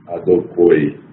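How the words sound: Said in Yemenite pronunciation, ending in 'oi'. "Existe a pronúncia Emani"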